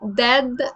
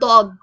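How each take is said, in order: First: The first consonant is plain and light. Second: The first consonant is heavy and emphatic. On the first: The speaker calls it wrong. "it is not dad" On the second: The speaker calls it right. "it's a heavy D"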